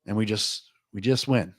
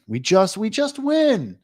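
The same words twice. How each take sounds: First: Said in the usual way. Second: Giddy drawn-out win. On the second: Real, not acted. Betting stream, repeats win line.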